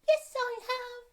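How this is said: It is said in a high, squeaky voice. "Have you have you bought your squeaky voice?"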